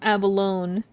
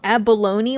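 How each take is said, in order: First: The ending rhymes with 'alone'. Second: The ending rhymes with 'bologna'. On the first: "like alone" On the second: "like Bologna"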